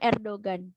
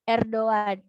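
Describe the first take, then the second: First: A hard g sound is heard in the middle. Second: The middle g is silent, vowels run together. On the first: The speaker calls it wrong. "bukan Erdogan" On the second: The speaker calls it right. "pengucapan nama beliau yang benar adalah Erdogan"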